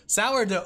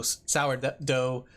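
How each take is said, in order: First: Sourdough punched higher and louder, falling; emphatic sourdough. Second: Said in the usual way. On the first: Shown as a demonstration. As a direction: land hard on sourdough. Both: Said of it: "it doesn't feel like a real word anymore".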